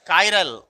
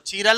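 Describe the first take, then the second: First: The first syllable sounds like kai. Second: The first syllable sounds like chee. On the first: The speaker calls it right. "इसका नाम क्या है? कायरल।" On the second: The speaker calls it wrong. "चीरल उरल नहीं है"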